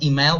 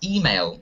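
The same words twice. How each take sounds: First: The stress is on the second syllable. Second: The stress is on the first syllable. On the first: The speaker calls it wrong. "You should pronounce not email" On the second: The speaker calls it right. "Stress the word on the first syllable"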